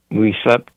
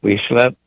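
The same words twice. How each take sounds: The two takes are said the same way.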